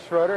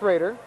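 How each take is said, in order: First: The first vowel sounds like 'oh'. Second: The first vowel sounds like 'ay'. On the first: The speaker calls it wrong. "we were mispronouncing Schroeder and saying it" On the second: The speaker calls it right. "It is in fact Schrader"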